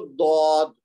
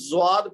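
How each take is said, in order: First: The name begins with a d-like sound. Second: The name begins with a z-like sound. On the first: The speaker calls it right. "सही तरीका है इसको दौद" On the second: The speaker calls it wrong. "इसको आमतौर पर ना ज्वाद पढ़ते हैं"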